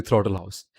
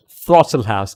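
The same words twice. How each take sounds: First: Indian-accented "Throttle House", th as hard t. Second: "Throttle House" opening on a soft th sound, loud. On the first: Streamer shows how an Indian says the channel name, Indian accent. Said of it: "An Indian would say". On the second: Streamer corrects a mixed-up channel name, Throttle with soft th. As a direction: say "Throttle House" with a clear th, punched. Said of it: "when you do multiple accents, you sometimes mix them up". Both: Shown as a demonstration.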